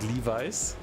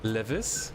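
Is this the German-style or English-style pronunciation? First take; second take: English-style; German-style. First: It is pronounced the English way. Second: It is pronounced the German way. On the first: The speaker calls it right. "I think it's called Levi's, is that correct?" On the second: The speaker calls it wrong. "We said Levis"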